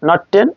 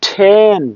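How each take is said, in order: First: The first consonant has no puff of air. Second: The first consonant has a strong puff of air. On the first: The speaker calls it wrong. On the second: The speaker calls it right.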